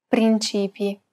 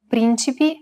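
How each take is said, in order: First: "principi" stressed on the middle syllable, prin-CI-pi. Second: "Principi" stressed on the first syllable, PRIN-ci-pi. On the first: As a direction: lengthen the "ci" in "principi". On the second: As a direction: hit the opening "Prin" of "Principi". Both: Shown as a demonstration. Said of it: "distinguish between two words".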